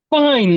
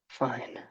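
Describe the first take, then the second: First: It is shouted loudly. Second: It is said quietly.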